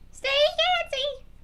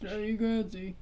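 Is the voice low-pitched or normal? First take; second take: normal; low-pitched. First: It is said in a regular speaking voice. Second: It is said in a lowered, deep voice.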